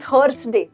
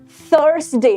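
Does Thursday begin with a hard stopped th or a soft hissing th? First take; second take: hard; soft. First: It begins with a hard stopped aspirated t. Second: It begins with a soft hissing th. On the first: The speaker calls it wrong. "ना कि थर्सडे। थ sound ही नहीं है" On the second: The speaker calls it right. "So it's थर्सडे"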